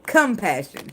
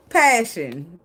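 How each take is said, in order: First: "Compassion," with the com- restored; corrected word. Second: "Passion." said as plain passion, misread; wrong word. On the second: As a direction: reads "Passion." instead of compassion. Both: Shown as a demonstration. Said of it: "Not passion".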